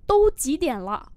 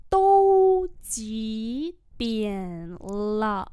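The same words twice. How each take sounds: First: Said in the usual way. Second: Very drawn-out syllables; slow model reading. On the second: Shown as a demonstration. Teacher modelling "what time is it" for learners, very slowly. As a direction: hold each syllable apart from the next.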